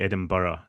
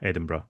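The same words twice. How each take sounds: First: The word is said with a Scottish pronunciation. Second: The word is said ending in a short 'bruh'. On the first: "technically it should be Edinburgh if you're speaking in Scottish" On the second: "it's usually pronounced bruh"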